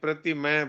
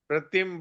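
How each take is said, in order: First: The final vowel sound is fully pronounced. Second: The final vowel sound is dropped. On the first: This is required in Sanskrit. The speaker calls it right. "Sanskrit में प्रतिमय बोलना पड़ेगा" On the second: This is acceptable in Hindi. The speaker calls it wrong. "Hindi में अपन प्रतिम बोल देंगे तो भी शुद्ध माना जाएगा"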